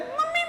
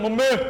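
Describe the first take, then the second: First: The voice is high and thin. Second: The voice is low and deep. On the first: A young child is calling. "पहले mummy बोल रहा था ऐसे करके" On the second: A child whose voice has broken is calling. "अब वो बोले mummy"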